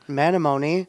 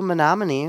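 First: The town name is said in a garbled GPS way. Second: The town name is said the usual local way. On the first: The speaker calls it wrong. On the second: The speaker calls it right.

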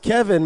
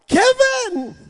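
First: The name is said in a calm, ordinary way. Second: The name is cried out loudly and urgently.

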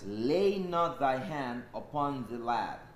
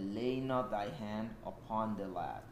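First: It is read with a mighty shout. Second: It is read at normal volume.

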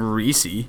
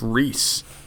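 First: The name is said as two syllables. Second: The name is said as one syllable. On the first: The speaker calls it wrong. "it wasn't Reese-y" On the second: The speaker calls it right. "The guy's last name was Reese"

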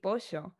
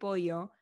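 First: It is said with an Argentine 'sh' sound. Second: It is said without the Argentine 'sh' sound.

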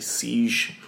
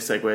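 First: The word ends with a 'j' sound. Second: The word ends with a 'way' sound. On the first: The speaker calls it wrong. "I say siege" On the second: The speaker calls it right. "I don't say segue"

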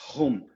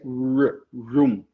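First: The word begins with an h-like sound. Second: The word begins with an English r sound. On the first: The speaker calls it wrong. "lá atrás você falou home. Home. E a gente não fala com esse som de R" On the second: The speaker calls it right. "Esse é room"

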